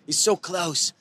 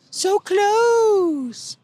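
First: Said in the usual way. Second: High, slow and drawn out; so close pulled long and high; excited stretched emphasis. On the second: Real, not acted. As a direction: stretch it out, agonizing over the near miss. Tense final lap.

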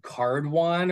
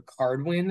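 First: Cardwan, ending like "won"; pronounced Cardwan. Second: Cardwin, ending like "win"; pronounced Cardwin. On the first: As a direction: say Cardwan with a "won" second syllable. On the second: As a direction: say Cardwin with a "win" second syllable. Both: Shown as a demonstration. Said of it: "however you pronounce it".

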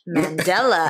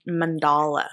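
First: Mandela with "DELL" in the middle; standard Mandela pronunciation. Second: Mandala with "DAHL" in the middle; mispronounced as Mandala. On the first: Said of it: "I always pronounce it as". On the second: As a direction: say man-DAH-luh for Mandala. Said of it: "I always mispronounce it". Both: Shown as a demonstration.

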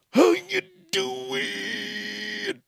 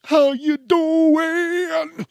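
First: Stretched greeting. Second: Very high, very slow sung-out greeting; drawn-out host croon; stretched greeting. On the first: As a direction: float the last take up high. Drawn-out host greeting repeated. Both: Acted.

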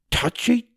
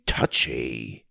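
First: High, rising teasing touchy; dopey cartoon bellow. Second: Low falling grumbled touchy; dopey cartoon bellow. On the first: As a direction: tease it up high. Tim nursing hand. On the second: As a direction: drop it low, sulky. Repeated falling.

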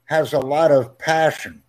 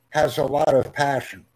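No difference in how they are said.

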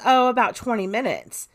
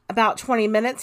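First: Said in the usual way. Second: "About twenty minutes?" rising at the end; checking question, pitch lifting on "minutes"; questioning echo. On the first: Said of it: "She says". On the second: Retold or imitated. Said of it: "he asks".

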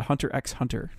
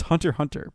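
First: "Hunter X Hunter" with X as a letter; X spoken aloud. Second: "Hunter Hunter" with no X sounded; X left silent. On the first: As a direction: sound out the X between both "Hunter"s. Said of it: "If you wanna make people mad, you call it". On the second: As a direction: say "Hunter" twice, skipping the letter. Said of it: "It's Hunter Hunter". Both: Shown as a demonstration.

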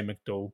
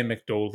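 First: McDowell said mick-DOOL, ending in dool; Northern Irish McDowell. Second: McDowell said mick-TOLL, ending in toll; his own McDowell. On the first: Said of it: "If you're from Northern Ireland, you say". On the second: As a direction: McDowell with a rounded -tol end. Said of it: "I say McDowell". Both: Shown as a demonstration.

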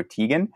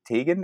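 First: Tegan said as TEE-gun; second guess at Tegan, long EE vowel; alternative name pronunciation. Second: Tegan said as TAY-gun; first guess at Tegan, long AY vowel; tentative name pronunciation. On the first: Interviewer offers other option for name, Tegan as TEE-gun. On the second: Interviewer unsure of philosopher's name, tentative Tegan as TAY-gun. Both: Shown as a demonstration. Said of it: "hope I'm not pronouncing his name wrong".

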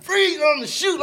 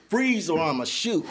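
First: High, loud police yell; shouted cop command. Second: Slow mock police order; mock cop command. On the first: Retold or imitated. Gunman yelling after him down the hill, high loud shout. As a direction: bark it like a cop mid-chase. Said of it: "He like". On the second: Gunman chasing him downhill, slow mock police command. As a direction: drag out the warning like a cop. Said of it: "telling me like he a police officer".

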